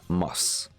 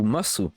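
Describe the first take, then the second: First: The final u vowel is dropped. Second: The final u vowel is clearly voiced. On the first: "Mais en fait, tu vas prononcer des, mas" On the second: "théoriquement, si tu lis comme ça, c'est desu ou masu"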